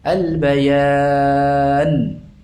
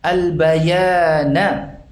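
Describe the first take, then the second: First: The word ends on a silent consonant. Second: The word ends with a short vowel. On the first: The reader stops on this word. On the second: The reading continues without stopping.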